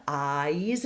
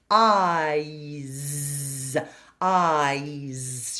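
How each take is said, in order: First: "eyes" as a tall dark ah gliding to a bright E; diphthong demo. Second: "Eyes" with a big open ah ending on a buzzy Z; wide open diphthong. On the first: Teacher modelling the "eyes" diphthong for students, open and stretched. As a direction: open wide on ah, then slide to E in "eyes". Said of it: "It's a diphthong". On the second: Teacher showing the space in "Eyes", open and slow. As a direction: make lots of space in the mouth for "Eyes". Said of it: "how much space I create". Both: Shown as a demonstration.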